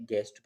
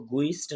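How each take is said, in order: First: गेस्ट with the u silent, g straight into e; गेस्ट said plainly, no u sound; correct pronunciation. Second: गुइस्ट said with a sounded u, as the wrong way; गुइस्ट, voicing the u after g as the mistake; wrong pronunciation. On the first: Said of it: "बल्कि गेस्ट पढ़ेंगे". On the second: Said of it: "इसको गुइस्ट नहीं पढ़ेंगे". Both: Shown as a demonstration.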